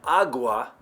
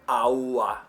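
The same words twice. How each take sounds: First: The g is a full, hard sound. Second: The g is a very soft, weak sound. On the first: The speaker calls it wrong. "You've been saying it incorrectly" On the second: The speaker calls it right. "I'm saying a G"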